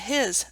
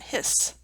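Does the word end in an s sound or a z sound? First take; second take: z sound; s sound. First: The word ends in a buzzing z sound. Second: The word ends in a hissing s sound.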